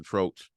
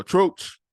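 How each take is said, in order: First: Said in the usual way. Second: Troach hit much higher and louder, drawn out; emphasis on Troach. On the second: Shown as a demonstration. Correcting himself, says the artist's name with emphasis. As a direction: belt the name Troach with weight. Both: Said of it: "you gotta say his name with the emphasis".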